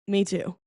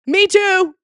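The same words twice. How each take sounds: First: Said in the usual way. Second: Sudden high, loud squeal; a thrilled high-pitched yelp; excited. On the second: Pretend. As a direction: blurt it out like a giddy fan. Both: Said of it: "Hey, guess what?".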